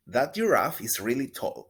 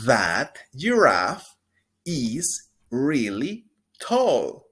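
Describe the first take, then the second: First: Said in the usual way. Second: Slow, loud, clear teacher model; drawn-out pronunciation model; slow model sentence. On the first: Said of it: "Una vez más". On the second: Shown as a demonstration. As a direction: stretch each word for repeating. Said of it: "Repita después de mí".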